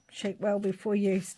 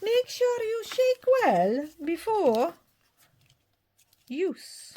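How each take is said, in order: First: Said in the usual way. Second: Put-on slow, much higher, in a made-up Scottish accent; a daft Scottish-ish character reading the label; weird Scottish accent. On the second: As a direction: stretch "shake well before use" out in a squeaky Scottish mix voice. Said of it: "kind of a weird Scottish mix thing".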